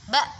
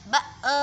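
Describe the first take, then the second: First: The b stops cleanly with no trailing sound. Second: The b is followed by a trailing vowel sound. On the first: The speaker calls it right. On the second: The speaker calls it wrong. "tidak seperti itu"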